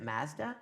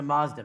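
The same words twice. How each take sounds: First: Mazda with a short a, as in cat; Vancouver pronunciation. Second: Mazda with a broad ah in the first syllable; corrected pronunciation. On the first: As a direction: say Mazda the Vancouver way, flat 'a'. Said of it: "joking about the Vancouver accent". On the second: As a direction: say Mazda as MAHZ-da, correcting firmly. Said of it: "So you pronounce it". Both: Shown as a demonstration.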